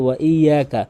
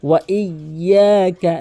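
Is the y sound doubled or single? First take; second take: single; doubled. First: The y sound is short and single. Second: The y sound is held and doubled. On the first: The speaker calls it wrong. "এখানে মারাত্মক লেভেলের ভুল করে" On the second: The speaker calls it right. "তাসদীদের উচ্চারণ ডবল করতে হবে"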